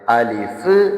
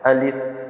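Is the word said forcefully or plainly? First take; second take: forcefully; plainly. First: It is said with strong, excited force. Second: It is said plainly, without extra force. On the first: The speaker calls it wrong. "ചിലർ വായിക്കുന്നുണ്ട് നല്ല ആവേശത്തില്" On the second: The speaker calls it right. "വളരെ നോർമലായിട്ട്, ഭാരം കൊടുക്കാതെ"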